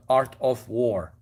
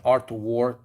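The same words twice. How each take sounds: First: "Art of War" slowly, with OF fully pronounced; careful self-correction. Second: Said in the usual way. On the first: Real, not acted. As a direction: enunciate "of" in "Art of War", drawing the words out slowly. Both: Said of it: "I'm sorry".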